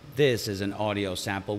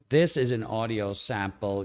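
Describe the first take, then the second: First: Background noise is left in with the voice. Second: Background noise is filtered out of the voice. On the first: "with no noise suppression recorded in OBS Studio" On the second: "using RNNoise in OBS Studio"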